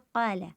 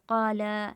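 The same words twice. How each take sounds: First: The vowel after the L is short. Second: The vowel after the L is drawn out long. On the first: One person said it. "क़ाला का मतलब है एक शख्स ने कहा" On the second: Several people said it. "अगर हम क़ाला को लाम को लंबा कर दे"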